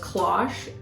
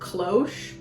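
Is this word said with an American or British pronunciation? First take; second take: British; American. First: It is said with a British pronunciation. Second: It is said with an American pronunciation. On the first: "The British pronunciation was" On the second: "the American pronunciation was"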